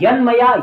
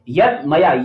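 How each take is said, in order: First: The first word ends in a nasal n sound. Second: The first word ends in a t sound.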